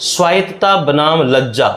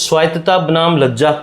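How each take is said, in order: No difference in how they are said.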